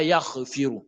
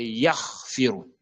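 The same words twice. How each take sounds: First: Yaghfiru with an extra little vowel after yagh; wrong released gh. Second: Yaghfiru slow, gh held with no vowel before firu; correct vowelless gh. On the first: Teacher showing the mistake, gh released. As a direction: let gh bounce, "yagh-e-firu". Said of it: "Ce n'est pas yaghfiru". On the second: Teacher correcting learners, gh held closed. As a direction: hold the throat sound in yagh, then go to firu. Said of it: "c'est yaghfiru". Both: Shown as a demonstration.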